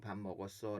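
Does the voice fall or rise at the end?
falls. The pitch stays level or falls at the end. It states that the speaker has eaten. "끝을 높이지 않고"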